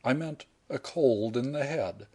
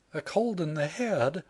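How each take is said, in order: First: Said in the usual way. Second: Higher, questioning heroine voice; higher, puzzled young woman's echo; incredulous echo. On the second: Acted. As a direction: repeat it in disbelief.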